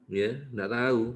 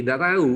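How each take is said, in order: First: Said in the usual way. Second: A loud, firm no-idea, higher; emphatic answer. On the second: Real, not acted. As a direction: blurt it out firmly, louder. Doctor answers quoted question bluntly. (jawaban tegas dan lebih keras)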